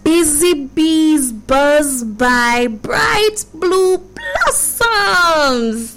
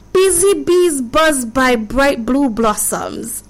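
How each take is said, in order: First: It is said slowly. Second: It is said at normal speed.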